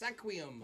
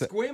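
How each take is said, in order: First: The name is said as three syllables. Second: The name is said as one short syllable. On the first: This is how the name looks when read. "when you read it, it's Sequium" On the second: This is how the name is actually pronounced. "I know it's Squim"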